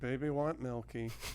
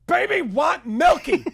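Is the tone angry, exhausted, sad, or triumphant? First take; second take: sad; angry. First: It is said in a sad, resigned way. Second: It is said as an angry declaration.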